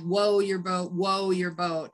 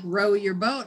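First: The first word begins with a W sound. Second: The first word begins with an R sound. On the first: The speaker calls it wrong. "I would be like woe your boat" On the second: The speaker calls it right. "I would want to say like row your boat"

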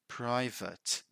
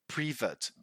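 First: The second syllable sounds like 'vit'. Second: The second syllable sounds like 'vet'. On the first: The speaker calls it right. "The right way is private" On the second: The speaker calls it wrong. "Sometimes people say privet... But that's wrong"

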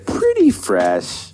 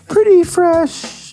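First: It is said in a normal voice. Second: It is said in a high voice.

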